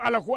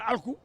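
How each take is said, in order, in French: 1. Une voyelle supplémentaire se fait entendre entre le L et le K. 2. Le L et le K se prononcent ensemble, sans voyelle. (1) "il dit Alakou" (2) "à la place de Alkou"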